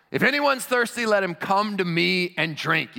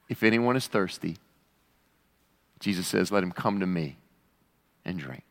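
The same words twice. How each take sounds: First: High, raised voice calling to the crowd; loud proclamation. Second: Low, hushing toward the end; gentle invitation. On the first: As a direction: proclaim it urgently, stretching the invitation. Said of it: "shouts in a loud voice". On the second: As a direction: offer it solemnly, with long pauses. Invitation restated solemnly, after earlier shout. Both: Acted.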